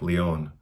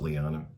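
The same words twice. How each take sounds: First: The name is said with a French/Spanish accent. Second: The name is said with an American accent.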